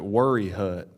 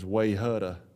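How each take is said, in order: First: It is said as 'worry hut' with R sounds. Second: It is said as 'way-hutta' without R sounds. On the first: The speaker calls it right. "You pronounce it Worry Hut" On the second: The speaker calls it wrong. "they would probably try to pronounce it as Wayhutta"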